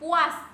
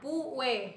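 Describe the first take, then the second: First: The word ends in an as sound. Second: The word ends in an e sound.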